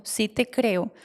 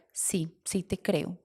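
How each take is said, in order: First: Said in the usual way. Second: Slow, much softer, quietly giving in; tender admission. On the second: Retold or imitated. Mother quietly admitting she believes her daughter, soft and slow.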